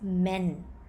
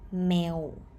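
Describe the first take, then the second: First: The syllable ends in an n sound. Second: The syllable ends in a vowel sound. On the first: The speaker calls it wrong. "it should has nonu sound, and it's supposed to be pronounced men, but it is not" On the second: The speaker calls it right. "This syllable is pronounced male with vowel sound"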